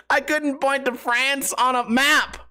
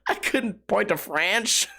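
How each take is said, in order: First: France said properly with an s ending, high and slow; corrected France. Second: France garbled into "franch", drawn out slowly; slip on France. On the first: Finally getting the line out after the slip, emphatic correct France. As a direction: land France cleanly, ending in s, pitched up. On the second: Retrying the line while amused by own slip, France as "franch". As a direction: say France like ranch, with a ch ending. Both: Real, not acted. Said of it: "trying to say French and France".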